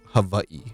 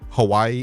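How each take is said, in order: First: The middle consonant is a V sound. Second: The middle consonant is a W sound.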